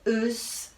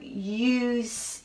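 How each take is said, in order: First: The vowel is a short 'uh' sound. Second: The vowel is a long 'yoo' sound. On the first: "could be uh, us. That doesn't sound right either" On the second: "I'm going to try the U"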